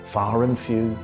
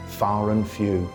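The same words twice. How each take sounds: The two takes are said the same way.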